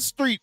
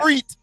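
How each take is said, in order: First: It is said with a non-Texan pronunciation. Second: It is said with a Texan pronunciation. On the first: The speaker calls it wrong. "not street" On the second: The speaker calls it right. "in Texas, we say"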